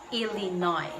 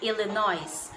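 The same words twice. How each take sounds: First: The final S sound is left silent. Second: The final S sound is pronounced. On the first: The speaker calls it right. "it should be pronounced as silent S" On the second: The speaker calls it wrong. "wag nating sabihin na"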